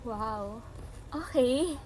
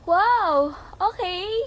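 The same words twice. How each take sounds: First: It is said in a flirty, playful tone. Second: It is said in a supportive, encouraging tone. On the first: "Flirty, pero parang masaya" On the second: "start tayo sa may supportive"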